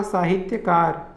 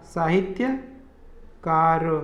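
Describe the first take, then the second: First: साहित्यकार said slowly, with त्य sounded clearly; slow correct pronunciation. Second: साहित्यकार drawn out syllable by syllable: सा-हि-त्य-कार; very slow syllable by syllable. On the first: Teacher to students, slow correct pronunciation. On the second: Teacher to students, spelled out very slowly. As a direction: stretch साहित्यकार right out, each syllable apart. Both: Shown as a demonstration. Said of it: "साहित्यकार का क्या होगा".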